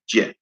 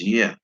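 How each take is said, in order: First: It begins with an English 'j' sound. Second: It begins with a 'y' sound. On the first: The speaker calls it wrong. "It is not Je" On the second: The speaker calls it right. "it is yeah"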